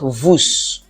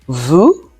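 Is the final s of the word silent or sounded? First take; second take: sounded; silent. First: The final s is sounded. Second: The final s is silent. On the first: The speaker calls it wrong. "not vous" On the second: The speaker calls it right. "This is vous"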